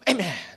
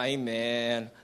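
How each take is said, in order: First: It is said with strong, confident conviction. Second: It is said half-heartedly, without conviction.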